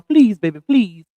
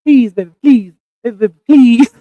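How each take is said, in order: First: Playful plea in own voice; mild, falling plea; own pleading voice. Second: Loud, punched-out begging; playful, hammed-up repeated plea; Spike Lee voice. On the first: Shown as a demonstration. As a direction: beg lightly, as yourself. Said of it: "That's my own voice. That ain't Spike Lee voice". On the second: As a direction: plead in a mock Spike Lee voice. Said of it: "The speaker in her Spike Lee voice".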